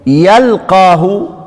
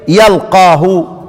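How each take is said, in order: First: The first vowel is u and q is doubled. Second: The first vowel is a and q is single. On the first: "مشددا يضم ايه؟ ضم الايه؟ الياء. وتشديد ايه؟" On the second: "ضد الضم الفتح، ... ضد المشدد التخفيف"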